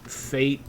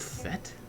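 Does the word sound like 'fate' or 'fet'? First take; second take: fate; fet. First: The vowel is long, as in 'fate'. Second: The vowel is short, as in 'fet'. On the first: The speaker calls it wrong. "fate is actually a mispronunciation that Westerners do" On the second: The speaker calls it right. "it's supposed to be pronounced "fet.""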